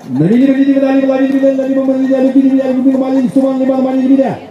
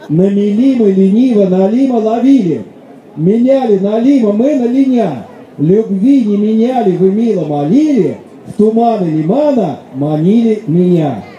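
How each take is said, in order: First: It is said fast. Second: It is said slowly.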